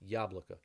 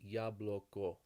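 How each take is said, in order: First: The last two vowels are reduced to a. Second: The last two vowels are full o sounds. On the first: The speaker calls it right. "it becomes yablaka instead of yabloko" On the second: The speaker calls it wrong. "if you said all the o as long o's"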